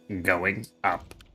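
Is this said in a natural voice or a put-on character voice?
put-on. It is said in a put-on announcer voice.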